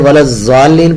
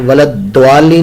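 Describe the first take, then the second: First: The key consonant is said as a Z. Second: The key consonant is said as a D. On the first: "वो जा का मखरज है" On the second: "ये दाल का मखरज है"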